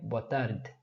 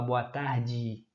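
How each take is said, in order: First: The d has no ee sound after it. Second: The d is followed by an ee sound. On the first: This is how it is said in Portugal. "No português de Portugal, você falaria boa tarde" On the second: This is how Brazilians say it. "o D tem I no final"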